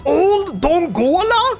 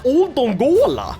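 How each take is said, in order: First: Put-on higher, slow, disbelieving Old Dongola; incredulous repeat. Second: Said in the usual way. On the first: Shown as a demonstration. Gamer echoing the town name, slow and incredulous.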